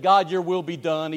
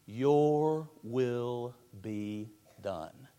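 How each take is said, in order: First: Resentful. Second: Very slow, soft and yielding; a whisper of complete surrender; submissive surrender. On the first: Retold or imitated. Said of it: "you say it resentfully". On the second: Shown as a demonstration. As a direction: let go of your own will as you say it. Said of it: "the perfect submissive spirit".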